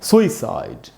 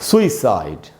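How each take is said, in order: First: The first vowel is long and stressed. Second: The first vowel is long and stressed.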